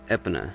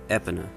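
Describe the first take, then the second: Both takes have the same delivery.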